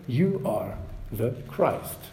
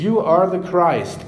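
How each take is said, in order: First: Soft, slow and deliberate; measured answer. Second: Louder, higher, firmly declared; bold confession. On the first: Peter answering Jesus' question, soft and measured. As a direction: say it softly, letting each word stand. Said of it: "to-the-point answer". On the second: Preacher echoing Peter's answer, bold and clear. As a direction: proclaim it clearly and boldly. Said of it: "clearly and boldly confessing". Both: Retold or imitated.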